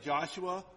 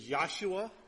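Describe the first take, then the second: First: The name begins with a J sound. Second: The name begins with a Y sound. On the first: This is the later form shaped by Latin. "I say it with a J because of that Latin influence" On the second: This is the original Hebrew form. "Hebrew doesn't really have a J sound"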